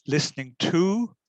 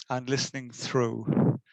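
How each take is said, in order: First: "to" lifted high and louder with a rise; stress on to. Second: "listening through" said slowly with "listening" leaning down in a fall; slow, weighted phrase. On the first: Speaker introducing his talk, stressing "to" with a rising tune. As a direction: lean on the word "to" and let it rise. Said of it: "We're more familiar with the phrase listening to".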